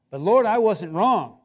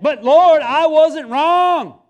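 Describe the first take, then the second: First: Said in the usual way. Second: Loud, high, drawn-out protest; indignant shout. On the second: Retold or imitated. Preacher shouting his protest at the Lord. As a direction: yell it out slowly, stubbornly insisting. Escalated protest to God, retold.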